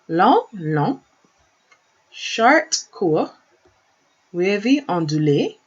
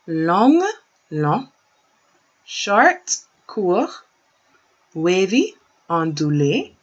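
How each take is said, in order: First: It is said at a faster pace. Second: It is said at a slower pace.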